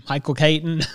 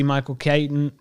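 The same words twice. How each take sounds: First: Said in the usual way. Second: Country accent. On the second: Real, not acted. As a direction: slip into a country accent on Michael Keaton. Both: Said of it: "butchering the last name".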